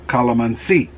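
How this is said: It is said with a Filipino pronunciation. "as my wife says"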